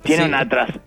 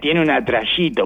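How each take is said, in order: First: The middle consonant is a plain s sound. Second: The middle consonant is a sh-like sound.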